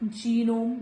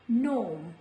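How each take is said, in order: First: The word begins with an audible g sound. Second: The word begins without any g sound. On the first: The speaker calls it wrong. "This is not genome" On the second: The speaker calls it right. "This is gnome"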